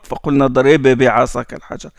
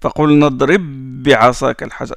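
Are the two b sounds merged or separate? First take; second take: separate; merged. First: The two b sounds are said separately. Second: The two b sounds merge into one doubled b. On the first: The speaker calls it wrong. "on ne dit pas ... C'est lourd" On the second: The speaker calls it right. "On appuie sur le bas"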